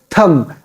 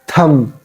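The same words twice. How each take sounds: The two takes are said the same way.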